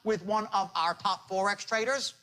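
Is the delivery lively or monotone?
monotone. It is said in a flat, monotone beat.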